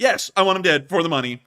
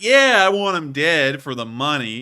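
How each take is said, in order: First: It is said in a sharp, flat, serious tone. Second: It is said in a mocking, sarcastic tone. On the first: The speaker truly means it. "sharp truth" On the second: The speaker does not really mean it. "it wasn't anything like that in tone"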